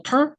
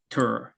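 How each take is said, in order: First: "tur" held high with no drop; monotone R, wrong. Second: "tur" settling low into the R. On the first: Teacher showing what to avoid, "tur" with a high monotone R. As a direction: keep the R of "tur" up high on one tone. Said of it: "여기서 모노톤으로". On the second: Teacher correcting the monotone, "tur" with a low R. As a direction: drop the pitch on "tur". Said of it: "이렇게 낮음으로 해주셔야 됩니다". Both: Shown as a demonstration.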